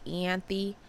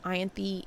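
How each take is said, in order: First: Ianthe starting like "ee": ee-AN-thee; alternative pronunciation. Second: Ianthe starting like "eye": eye-AN-thee; pronunciation option. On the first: Reader unsure of a name, trying Ianthe as ee-AN-thee. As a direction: say Ianthe with an ee opening. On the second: Reader unsure of a name, trying Ianthe as eye-AN-thee. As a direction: say Ianthe with a long I opening. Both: Shown as a demonstration. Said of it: "I don't know how you pronounce it".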